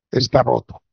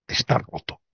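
First: Said in the usual way. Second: Whispered. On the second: Real, not acted. Repeated verdict, first whispered.

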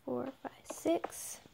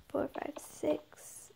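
Both takes have the same delivery.

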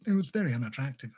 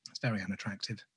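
First: A hint of a disapproving mother, brisk. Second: Said in the usual way. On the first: The artist catching his mother's tone in his own voice. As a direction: tut it out the way mum would. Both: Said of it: "I said that like my mother".

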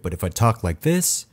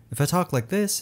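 First: Fuller voice from the chest; low mids emphasized. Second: Bad voice demo. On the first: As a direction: lean into the chest for a rich low end. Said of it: "and emphasize the low mids in my voice". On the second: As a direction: talk up high and light, without chest. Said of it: "it doesn't really sound that good". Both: Shown as a demonstration.

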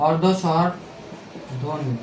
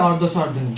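First: Very slow, softer, word stretched out with a pause inside; slow dictation. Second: Said in the usual way. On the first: Shown as a demonstration. Teacher repeating the key term for students, slow dictation. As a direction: spell out অর্ধ স্বরধ্বনি slowly, piece by piece.

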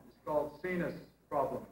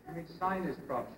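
First: "sinus" said as seenus, with an ee sound and no eye sound; French-accented sinus. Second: "sinus" said as sigh-nus, with the eye sound; he says "sinus" as sigh-nus to correct her; English sinus. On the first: Madame Bourgeois says "sinus" as seenus. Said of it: "She said". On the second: [name] corrects her: "sinus" said as sigh-nus. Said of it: "I said". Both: Acted.

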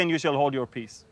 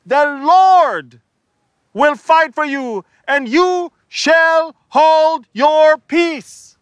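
First: Softer, lower quote of the line; quiet repeat. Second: High, loud, last words very slow; shouting at the people. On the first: Shown as a demonstration. Preacher quietly repeating Moses's words. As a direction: drop it down to explain. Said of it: "Why did he say". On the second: Acted. Moses yelling at the murmuring crowd, loud. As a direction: bellow it at the crowd. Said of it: "He's talking to the people".

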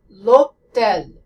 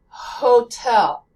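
First: "l'hôtel" louder, L gliding straight into the O; French silent H. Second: "hotel" louder, with an aspirated H at the front; American H. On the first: Teacher showing how to say it in French, H-less "l'hôtel". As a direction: skip the H entirely in "l'hôtel", French-style. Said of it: "you skip it altogether". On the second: Teacher demonstrating the American H, aspirated "hotel". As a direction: breathe out hard on the H of "hotel". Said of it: "And so the American H". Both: Shown as a demonstration.

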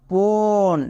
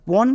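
First: পন with a long, held o sound; পন sustained on the o to show the sound; drawn-out vowel. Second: Said in the usual way. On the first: Shown as a demonstration. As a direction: stretch the vowel in পন so it stands out. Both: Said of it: "একটা ও sound আছে".

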